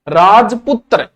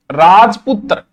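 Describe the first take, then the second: First: राजपुत्र said slowly, each cluster spelled out; effortful Sanskrit word. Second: Said in the usual way. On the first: Shown as a demonstration. Teacher showing the class how hard राजपुत्र is to say, slow and deliberate. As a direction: lean on the hard त्र in राजपुत्र, drawn out slowly. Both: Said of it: "राजपुत्र बोलने में जय आता है".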